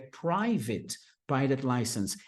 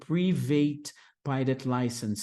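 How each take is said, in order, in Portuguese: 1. É dito com sons parecidos com os do inglês. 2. É dito com sons parecidos com os do português. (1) "sendo que é private pilot license" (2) "a gente quer deixar mais parecido com o português"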